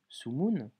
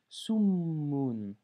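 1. Le m est court et simple. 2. Le m est tenu longtemps et doublé. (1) "je n'ai pas lu Sumun" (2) "j'ai lu Summun. J'ai insisté sur la consonne, j'ai doublé la consonne"

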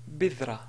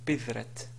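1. Le mot se termine sans son 't'. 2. Le mot se termine par un son 't'. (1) "si on veut s'arrêter sur la ta, on va dire" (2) "et non pas"

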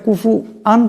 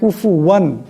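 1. এটা w ধ্বনি ছাড়া বলা হয়। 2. এটা পরিষ্কার w ধ্বনি দিয়ে বলা হয়। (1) "এখানে কুফু আন পড়লে হবে না" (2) "এটা কুফু ওয়ান ওয়ান এমন করে পড়তে হবে"

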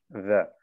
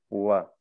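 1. Der erste Laut wird mit Lippe und Zähnen gebildet. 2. Der erste Laut wird mit beiden Lippen gebildet. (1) "also die unteren Zähne vom Kiefer mit der Lippe von oben. Wer. Das ist falsch" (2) "Es muss mit den beiden Lippen sein"

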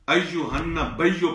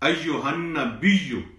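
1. b के बाद i स्वर नहीं है। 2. b के बाद i स्वर है। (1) "यहां लोग गलती करते हैं अय्युहन्ना बियो पढ़ते हैं" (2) "बा के नीचे जेर पढ़नी है"

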